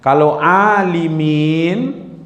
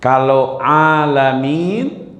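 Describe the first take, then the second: First: Alimin drawn out slowly with i vowels. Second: Alamin drawn out slowly with open a vowels. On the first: Teacher shows the wrong reading to the class. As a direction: stretch alimin, clear i sounds. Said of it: "itu artinya orang-orang yang alim". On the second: Teacher shows the right reading to the class. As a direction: stretch alamin, clear a sounds. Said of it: "itu nanti alam". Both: Shown as a demonstration.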